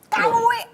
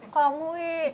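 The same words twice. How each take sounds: First: It is shouted loudly and angrily. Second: It is said softly and calmly.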